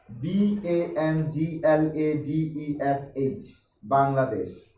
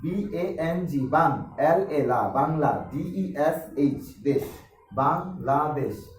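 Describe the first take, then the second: First: Slow, separate letters B-A-N-G-L-A-D-E-S-H, then the whole word Bangladesh; letter-by-letter spelling. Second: Slow letters in groups, each followed by its sound, বাং, লা, দেশ; syllable-by-syllable spelling. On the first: Teacher shows how many pupils spell Bangladesh, letter by letter. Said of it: "এইভাবে অনেকে পড়ে". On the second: Teacher shows another way pupils read Bangladesh, chunk by chunk. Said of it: "আবার অনেকে পড়ে". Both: Shown as a demonstration.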